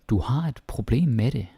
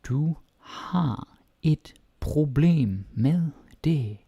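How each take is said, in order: First: It is said at normal speed. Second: It is said more slowly.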